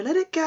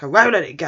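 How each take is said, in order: First: High, light coaxing tone; acted airy suggestion to drop it; placating. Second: Loud, indignant snap on "won't"; mock-stubborn refusal, punched loud; prickly. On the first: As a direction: coax lightly, pitched way up. Other teacher soothes the prickly one. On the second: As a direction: act touchy and refuse forcefully. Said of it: "he's really prickly".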